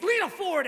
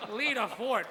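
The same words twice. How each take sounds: First: Hyped up host intro; announcer call. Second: Said in the usual way. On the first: Pretend. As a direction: announce her name like a ring host.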